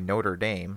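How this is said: It is said with an American accent. "if you want me to sound American, I could say Notre Dame"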